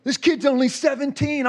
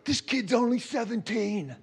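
First: Tearful. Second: Awed. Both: Retold or imitated. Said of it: "like, crying".

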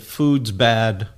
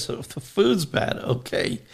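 First: Lower, blunt "Food's bad." from a tired monk; monk finally uses his two words, low and flat-out blunt; grumbling monk. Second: "So the food's bad" pitched higher, then a breathy "Okay"; incredulous Monsignor. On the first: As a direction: drop the voice and deadpan "Food's bad.". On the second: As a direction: lift the voice in mock disbelief on "food's bad". Monsignor answers the monk.

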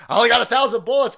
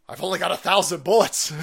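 First: Laughing repeat. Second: Said in the usual way. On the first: Acted.

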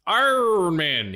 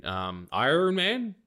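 First: Iron Man drawn out slowly in a mock Irish accent. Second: Said in the usual way. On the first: Shown as a demonstration. Jokey Irish take on the name after the plain one. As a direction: stretch Iron Man in a hammed-up Irish lilt. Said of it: "He's from Ireland". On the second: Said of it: "Iron Man. He's from Ireland".

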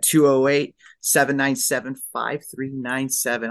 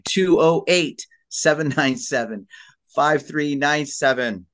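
First: Said in the usual way. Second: Slow, punched-out phone number read; radio host announcement. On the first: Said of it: "I'm gonna say it one more time". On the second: Real, not acted. Host repeats the guest's number for listeners, radio-host delivery. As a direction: announce each group of digits deliberately, radio-host style. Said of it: "I know I sound like a radio host".

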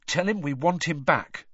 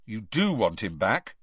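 First: Said in the usual way. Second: "do" leaned on, rising question; "do" stressed, challenging rise. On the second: Acted. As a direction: press hard on "do".

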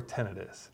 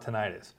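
First: Tinnitus as TIN-uh-tus, stressed up front; stress on first syllable of tinnitus. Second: Tinnitus as tin-EYE-tus, stressed in the middle; stress on second syllable of tinnitus. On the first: Host offering the alternative, tinnitus stressed as TIN-uh-tus. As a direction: hit the first syllable of tinnitus, short unstressed middle. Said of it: "the emphasis". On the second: Host naming the condition, tinnitus stressed as tin-EYE-tus. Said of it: "depending on where you wanna put". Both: Shown as a demonstration.

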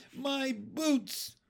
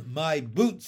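First: Put-on high-pitched drawn child's wail. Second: Said in the usual way. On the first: A narrator's reading. Girl lifted out of her boots, wailing. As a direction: wail in dismay over a loss. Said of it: "she wailed". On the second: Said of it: "said Ramona".

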